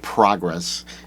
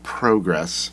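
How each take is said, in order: First: The word is said in an American accent. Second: The word is said in a British accent. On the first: The speaker calls it wrong. "They don't say progress" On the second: The speaker calls it right. "Alexis is from the U K. ... it's progress"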